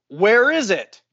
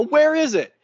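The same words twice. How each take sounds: First: Raised, louder retold demand; getting mad. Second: Much higher, louder retold demand; mad and elevated. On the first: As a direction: imitate irritation starting to climb. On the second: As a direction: re-enact exasperation boiling over. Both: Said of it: "I'm getting fucking mad and elevated".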